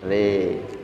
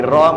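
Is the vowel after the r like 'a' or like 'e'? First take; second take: e; a. First: The vowel after r leans toward e. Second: The vowel after r is a plain open a. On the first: "Memiringkan fathah ro ke condong ke kasroh. ... menjadi re" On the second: "Dari ro"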